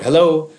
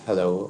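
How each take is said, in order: First: The word is said loudly. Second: The word is said quietly. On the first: "or loud" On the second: "do I say it quietly"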